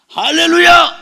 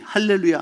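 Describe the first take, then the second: First: Loud, higher cry of hallelujah; bold proclamation. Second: Said in the usual way. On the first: Retold or imitated. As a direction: declare 할렐루야 boldly to the whole church. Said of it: "담대하게 선포했더니". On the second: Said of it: "자기가 할 수 있는 영어 단어 딱 두 개".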